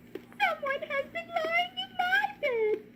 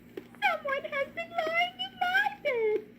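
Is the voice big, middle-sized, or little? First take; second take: little; little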